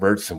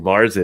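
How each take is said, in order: First: The word is said with a German pronunciation. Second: The word is said with an American pronunciation. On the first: The speaker calls it right. "points to you too for you said Murchison" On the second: The speaker calls it wrong. "that's the American version"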